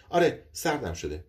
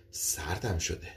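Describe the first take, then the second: First: Said in the usual way. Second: Softer, shaken admission of feeling cold; quiet shiver. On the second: Acted. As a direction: murmur it, unsettled. Woman frightened, says she's cold.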